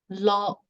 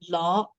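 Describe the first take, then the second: First: The pitch stays level and even. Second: The pitch starts low and rises. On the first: It means tiger. "the first word is lo" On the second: It means wax or candle. "symbolizes the low rising tone"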